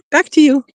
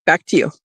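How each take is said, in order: First: Higher, brighter retake of "Back to you"; sing-song redo. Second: Said in the usual way. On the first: Real, not acted. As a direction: bounce it up playfully the second time.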